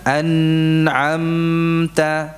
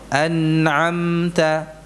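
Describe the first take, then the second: First: The nasal sound is held for a long time. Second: The nasal sound is held for a moderate time. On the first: The speaker calls it wrong. "Jadi tidak ditahan an'amta, tidak" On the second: The speaker calls it right. "sekedarnya an'amta"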